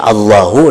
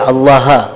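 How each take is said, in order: First: The word ends with an 'u' vowel. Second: The word ends with an 'a' vowel. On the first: The speaker calls it right. "nang mestinya barisnya Allahu" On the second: The speaker calls it wrong. "dibaca Allaha"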